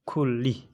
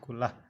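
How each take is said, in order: First: The word ends in an 'ee' sound. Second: The word ends in an 'ah' sound. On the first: The speaker calls it right. "itu dibaca fil amri kulli ya" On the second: The speaker calls it wrong. "bukan kulah"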